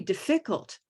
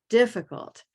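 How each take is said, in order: First: The stress falls on a later syllable. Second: The stress falls on the first syllable. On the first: The speaker calls it wrong. "It could be difficult, but it's not" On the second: The speaker calls it right. "It is definitely here in the first syllable"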